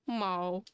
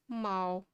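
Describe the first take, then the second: First: The meow is low, flat and monotone. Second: The meow is low, flat and monotone.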